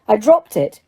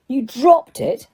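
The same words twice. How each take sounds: First: Said in the usual way. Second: DROPPED pitched up in disbelief. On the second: A narrator's reading. Diggory repeats Harry's claim, stressing "dropped" in disbelief. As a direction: echo "dropped" as an incredulous question. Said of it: "repeated Mister Diggory in disbelief".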